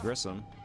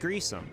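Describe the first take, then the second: First: The first vowel is short, as in 'kiss'. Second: The first vowel is long, as in 'grease'.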